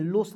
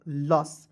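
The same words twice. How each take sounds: First: लोस with a long o, "lohs"; लोस as the mistaken reading; wrong pronunciation. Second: लस with a short a, "lus"; लस as the right reading; correct pronunciation. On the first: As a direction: say लोस stretching the o. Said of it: "लोस नहीं पढ़ेंगे". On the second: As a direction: say लस short and clipped. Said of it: "तो इसे देखिए लस पढ़ते हैं". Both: Shown as a demonstration.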